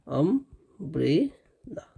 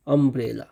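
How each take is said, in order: First: अम्ब्रेला drawn out very slowly, sound by sound, softer; slow sounded-out pronunciation. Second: Said in the usual way. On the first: Shown as a demonstration. Teacher to students, slowly sounding out अम्ब्रेला. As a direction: stretch अम्ब्रेला so every sound is heard. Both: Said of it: "इसका जब उच्चारण हम लोग करते हैं".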